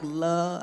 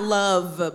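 First: The word ends without the v sound. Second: The word ends with a clear v sound. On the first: "but like love. ... Like L-U-H" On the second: "Not love"

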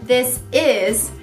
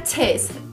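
First: The two words are said fully and separately. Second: The two words are merged into one short syllable. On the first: "o correto é this is" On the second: "Juntando fica tis"

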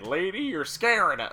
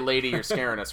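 First: It is said imitating the movie's delivery. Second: It is said in a plain, ordinary voice.

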